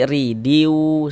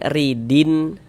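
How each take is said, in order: First: The n sound merges into a nasal w. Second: The final n sound is pronounced clearly. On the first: The speaker calls it right. "tapi ridiu seperti itu" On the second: The speaker calls it wrong. "Jangan dibaca ridin"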